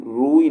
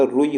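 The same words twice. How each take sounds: First: रूई with a stretched "rooo" before the ee; long U. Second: रुई with a quick U before the ee; short U. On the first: Teacher showing the wrong form, long U in रूई. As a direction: draw out the U in रूई. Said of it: "रूई नहीं होता". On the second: Teacher giving the correct form, short U in रुई. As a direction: keep the U in रुई brief. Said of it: "रुई होता है". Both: Shown as a demonstration.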